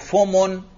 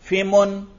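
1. पहले अक्षर में स्वर u है। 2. पहले अक्षर में स्वर i है। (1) "फा पर आप जम्मा पढ़ते हैं" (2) "अगर फा पर जेर भी पढ़ें"

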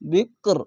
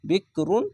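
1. শব্দটি খালি 'r' ধ্বনি দিয়ে শেষ হয়েছে। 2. শব্দটি সম্পূর্ণ 'run' দিয়ে শেষ হয়েছে।

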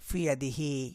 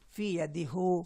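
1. শেষ অক্ষরটি i স্বরে শেষ হয়। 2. শেষ অক্ষরটি u স্বরে শেষ হয়। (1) "এজন্য পেশটাকে জেরে পড়া হয়।" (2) "ফি অ্যাদি হু বললে কত কষ্ট হচ্ছে না? জেরের পর পেশ উচ্চারণটা অনেক কঠিন।"

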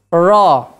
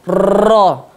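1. R-nya lembut tanpa getaran. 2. R-nya digetarkan dengan banyak getaran. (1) "R-nya orang-orang Inggris, yaitu cadel" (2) "itu seperti R-nya Indonesia"

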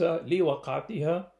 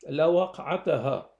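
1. تأتي بعد اللام الحركة 'i'. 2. تأتي بعد اللام الحركة 'a'. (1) "بكسر اللام وبالجر" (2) "بفتح اللام وبالنصب"

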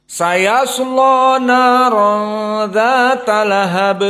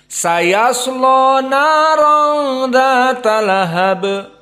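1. L-nya berat dan vokalnya gelap. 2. L-nya berat dan vokalnya gelap.

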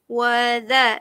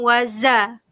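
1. Konsonan di tengah itu bunyi 'th' lembut. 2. Konsonan di tengah itu bunyi 'z' yang berdengung. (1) "dha kena lembutkan" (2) "jangan waza"

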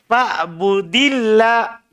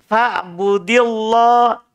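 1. L pada Allah itu tipis dan ringan. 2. L pada Allah itu tebal dan berat. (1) "Biasa tipis" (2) "jangan bilang fa'budillah. Salah"

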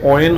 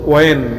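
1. শব্দটি w ধ্বনি দিয়ে শুরু হয়। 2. শব্দটি w ধ্বনি দিয়ে শুরু হয়।

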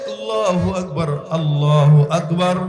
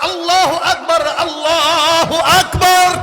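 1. এটি আস্তে ও ধীরে বলা হয়। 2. এটি জোরে, গলা উঁচু করে বলা হয়। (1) "আস্তে আস্তে সুন্দর করে বলে" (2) "জবানটা উঁচা করে ডাক দেয়া কয়"

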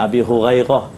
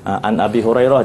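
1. R-nya terdengar seperti gh di tenggorokan. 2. R-nya adalah r ketuk yang jelas.

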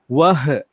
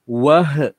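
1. Bunyi h di akhir dipantulkan dengan gema. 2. Bunyi h di akhir dipantulkan dengan gema.

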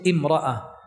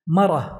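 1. تبدأ بالحركة i وتحتفظ بالهمزة. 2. تبدأ بـ "ma" وتحذف الهمزة. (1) "إذا أتيت بهمزة الوصل" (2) "سهلت فحذفت الهمزة"

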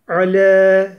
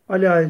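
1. L ince, ünlüsü de ön ince. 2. L kalın, ünlüsü de arka kalın ve açık. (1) "Lam ince harf" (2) "la değil"

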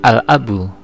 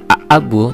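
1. Terdengar jelas bunyi l sebelum kata. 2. Tidak terdengar bunyi l sebelum kata. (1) "tetapi al-abu" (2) "tidak dibaca a-abu"

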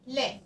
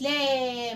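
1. الحركة مقطوعة قصيرة وسريعة. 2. الحركة ممدودة طويلة. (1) "انا خطفتها" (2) "ما قلتش لا ما طولتش"

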